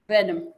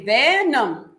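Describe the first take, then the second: First: The first vowel E is short. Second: The first vowel E is long. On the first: The speaker calls it right. "This E needs to be protected so that the sound stays short" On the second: The speaker calls it wrong. "We don't say venom"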